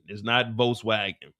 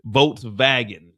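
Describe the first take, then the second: First: Volkswagen said the English way with a W; the usual American Volkswagen with a W; English pronunciation. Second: Volkswagen said the German way, Folks-vagen with a V; German pronunciation. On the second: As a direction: say Volkswagen with a V sound for the W. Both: Shown as a demonstration. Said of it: "It's pronounced Volkswagen in German".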